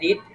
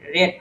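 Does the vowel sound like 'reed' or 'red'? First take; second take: reed; red. First: The vowel is a long 'ee' sound. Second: The vowel is a short 'e' sound. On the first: It is the present form of the verb. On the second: It is the past form of the verb.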